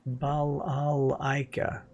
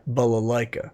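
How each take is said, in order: First: Slow, drawn-out Russian accent. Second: Said in the usual way. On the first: Shown as a demonstration. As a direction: stretch it out like a Russian. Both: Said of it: "try to say that name in a Russian voice".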